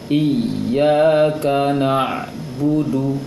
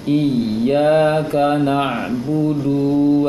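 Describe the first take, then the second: First: The final vowel of na'budu is short. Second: The final vowel of na'budu is drawn out long. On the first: The speaker calls it right. "Kalau pendek seperti ini bacanya" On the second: The speaker calls it wrong. "Yang panjang ... terpanjangkan dunya. Itu yang salah"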